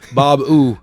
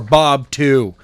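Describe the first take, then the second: First: The second word starts with a bare vowel sound. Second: The second word starts with a hard T sound. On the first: The speaker calls it wrong. "Otherwise it would be it would be ooh" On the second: The speaker calls it right. "Two with a hard T"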